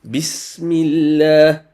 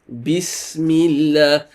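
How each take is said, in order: Both takes have the same delivery.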